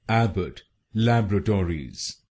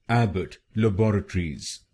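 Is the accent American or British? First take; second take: American; British. First: It is said in an American accent. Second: It is said in a British accent.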